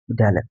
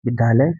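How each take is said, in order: First: विद्यालय with a clear dy glide; correct conjunct. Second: विद्यालय said with a heavy d and no y sound; mispronounced conjunct. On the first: Teacher shows learners the correct form, विद्यालय with dy. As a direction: sound the y after d in विद्यालय. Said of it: "दोनों में अंतर देखिए". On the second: Teacher shows learners the faulty form, विद्यालय without its y. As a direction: drop the y glide in विद्यालय. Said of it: "इसमें धा है". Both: Shown as a demonstration.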